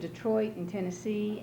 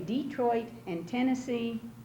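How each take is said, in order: First: The names are stressed on a later syllable. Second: The names are stressed on the first syllable. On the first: This is the way others expect it to be said. "instead of" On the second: This is the speaker's own community's accepted way. "we say Detroit and Tennessee ... you emphasize the first syllable of the word"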